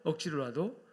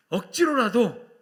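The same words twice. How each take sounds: First: Said in the usual way. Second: Loud, high, stretched-out exhortation; emphatic call. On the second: Shown as a demonstration. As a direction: punch it out slowly at full force. Preacher gives line to repeat. (크고 길게 힘주어 외치며)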